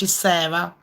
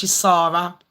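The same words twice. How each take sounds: First: "Sarah" with an eh vowel, SEH-ra; pronounced SEH-ra. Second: "Sarah" with an open ah, SAH-ra; pronounced SAH-ra. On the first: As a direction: say "Sarah" to rhyme with Sera. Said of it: "If it's spelled with an H". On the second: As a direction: say "Sarah" as SAH-ra, not SEH-ra. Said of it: "If it's spelled with H and H". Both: Shown as a demonstration.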